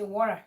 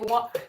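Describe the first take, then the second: First: It is said in an American accent. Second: It is said in a British accent. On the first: "the American will say water" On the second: "the British will say water"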